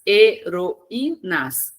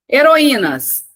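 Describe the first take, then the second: First: "Heroínas" very slowly, split He-ro-í-nas; syllable by syllable. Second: HEROÍNAS as one word, high and loud; announced word. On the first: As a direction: separate each syllable of "Heroínas" clearly. Teacher splits word into syllables. ("Heroínas" silabado devagar, He-ro-í-nas) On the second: Teacher announces the next word. ("Heroínas" anunciado inteiro, alto e enfático) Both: Shown as a demonstration.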